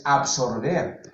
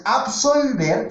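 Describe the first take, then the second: First: "absorber" pronounced with a distinct R before the b; "absorber", carefully articulated with R; clear R in absorber. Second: "absolver" pronounced with a distinct L before the v; "absolver", carefully articulated with L; clear L in absolver. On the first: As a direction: stress the R sound in "absorber" to set it apart. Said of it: "y otra cosa es absorber". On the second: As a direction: stress the L sound in "absolver" to set it apart. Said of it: "Una cosa es absolver". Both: Shown as a demonstration.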